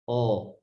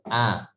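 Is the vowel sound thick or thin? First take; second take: thick; thin. First: The vowel is rounded and heavy, like o. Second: The vowel is open and thin, like a. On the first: The speaker calls it wrong. "ini nggak boleh o" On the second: The speaker calls it right. "kita ucapkan a"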